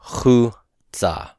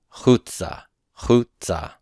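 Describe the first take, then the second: First: "chutza" slowly, split into chu and tza, first part stressed; pronunciation demo. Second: "chutza" joined up, stressed on the first syllable; pronunciation demo. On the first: Teacher showing how it's pronounced, "chutza" slow and split after chu. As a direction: draw out "chutza" syllable by syllable. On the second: Teacher repeating how it's pronounced, "chutza" joined with first-syllable stress. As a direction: say "chutza" as one word, falling after chu. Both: Shown as a demonstration. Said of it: "it's pronounced chutza".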